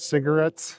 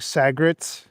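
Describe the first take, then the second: First: The word is said with all three syllables. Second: The word is squeezed into two short syllables. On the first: "instead of cigarettes" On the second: "I'll say things like "sagrets""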